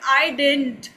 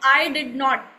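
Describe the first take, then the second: First: It is contracted to one quicker word. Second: Every word is said fully and separately. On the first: "fast English में बोलते हैं" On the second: "अगर हम कहते हैं ना आई डिड नॉट"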